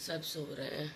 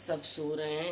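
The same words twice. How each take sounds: First: Much softer, almost hushed; speaking softly. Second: Said in the usual way. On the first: Real, not acted. Mother at six a.m. while everyone sleeps, hushed. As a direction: drop the voice so nobody wakes. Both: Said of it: "मैं धीरे धीरे बोल रही हूँ".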